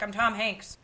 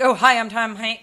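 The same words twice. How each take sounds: First: Soft, casual name drop; understated self-introduction. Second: Loud, showy celebrity intro; mock grand star greeting; pompous self-introduction. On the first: Retold or imitated. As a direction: say your name offhandedly. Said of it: "You know, like". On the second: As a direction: announce yourself like a big star. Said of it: "He was not like".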